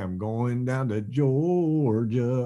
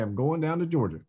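First: The word Georgia is stretched out long. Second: The word Georgia is said short and quick. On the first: It fits a line that needs a longer word. "if you need a longer one" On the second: It fits a line that needs a quick word. "if you need a real quick word"

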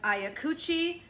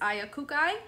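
First: The name is said with Italian pronunciation. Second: The name is said without Italian pronunciation. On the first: "I would pronounce this as Iacucci, in Italian" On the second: "the interweb says Iacucci"

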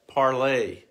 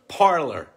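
First: The name is said with a French pronunciation. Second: The name is said with an English pronunciation. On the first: This is how the name was intended to sound. "was meant to be parlay, as in the French" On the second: This is how people actually say the name. "It's Parler, damn it"

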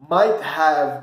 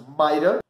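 First: The word have is said in full. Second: Have is reduced to a short uh sound.

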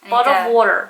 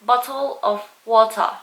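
First: The t sounds are soft, like a d. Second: The t sounds are clear and crisp. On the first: This is how Americans say it. "very American" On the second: This is how Australians say it. "ถ้าที่นี่ก็จะเป็น"

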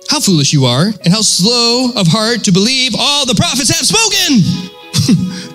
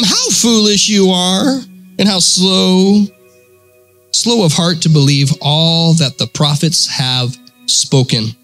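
First: It is read forcefully, as an exclamation. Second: It is read flatly, without exclamatory force.

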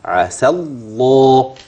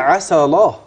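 First: The lam is doubled and held. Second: The lam is light and single. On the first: The speaker calls it right. "لكن أنا عندي في شدة" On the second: The speaker calls it wrong. "الله بقت لام خفيفة"

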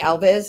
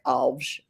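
First: The name is said with an American English pronunciation. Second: The name is said with a Portuguese pronunciation. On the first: This is how the family was called in America. "the Americanization would be Alves" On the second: This is how the name is said in Portuguese. "Portuguese tends to be like the continental Portuguese, as opposed to Brazilian would be more like Alves"

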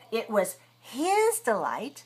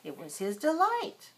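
First: The word his is strong and stressed. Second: The word his is weak; delight carries stress. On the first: His enjoyment is contrasted with the dogs' enjoyment. "we make it big and strong because we want to emphasize something, because we want to contrast two ideas" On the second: The enjoyment belonged to him, with no contrast intended. "normally we don't stress the word his. We usually say"

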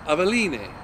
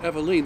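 First: The name is said with a Spanish-style pronunciation. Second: The name is said with an English-style pronunciation. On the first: This is how one would expect a Spanish name to sound. "you would expect if it's Spanish" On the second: This is how the label says to pronounce it. "they tell you how to pronounce it"

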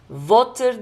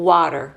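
First: It begins with a V sound, teeth on lip. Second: It begins with a W sound, rounded lips. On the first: The speaker calls it wrong. "Water değil" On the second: The speaker calls it right. "Ama W'da U diş hiçbir yere değmiyor"

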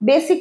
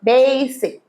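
First: The first vowel is a short plain 'e'. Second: The first vowel sounds like 'day'. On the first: The speaker calls it wrong. "বেসিক নয়" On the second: The speaker calls it right. "ডেই এর মতো ব্যাপার"

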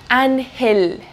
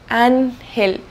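The two takes are said the same way.

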